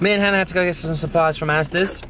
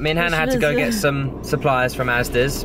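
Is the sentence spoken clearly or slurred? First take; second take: slurred; clearly. First: The words are slurred together indistinctly. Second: The words are spoken clearly and distinctly. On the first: The speaker calls it wrong. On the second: The speaker calls it right.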